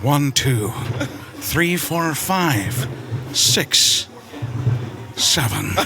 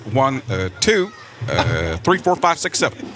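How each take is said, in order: First: The numbers follow without any hesitation fillers. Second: Hesitant 'uh' fillers break up the first numbers. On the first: It copies another actor's speaking cadence. "With Liam Neeson" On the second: It copies one public figure's speaking cadence. "I've always said this with Barack Obama"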